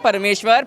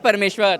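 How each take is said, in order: No difference in how they are said.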